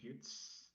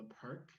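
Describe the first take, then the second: First: The name ends in an s sound. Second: The name ends in a k sound.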